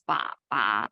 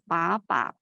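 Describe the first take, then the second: First: The syllables carry the dipping third tone. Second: The syllables carry the rising second tone. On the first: "The third tone is ba ba" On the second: "the second tone is ba ba"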